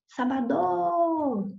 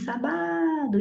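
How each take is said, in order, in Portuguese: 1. A tônica está na última sílaba. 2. A tônica está na segunda sílaba. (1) "Não é a última" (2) "nem a penúltima"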